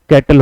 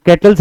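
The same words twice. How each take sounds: First: "कैटल" ending on l, no final s; correct plural. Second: "कैटल्स" with an added final s; wrong plural. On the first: Teacher giving students the correction, "कैटल" without final s. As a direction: say "कैटल", stopping on the l. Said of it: "कैटल होगा". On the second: Teacher showing students the mistake, wrong plural "कैटल्स" with final s. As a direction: say "कैटल्स", sounding the s at the end. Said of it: "कैटल्स नहीं होगा". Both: Shown as a demonstration.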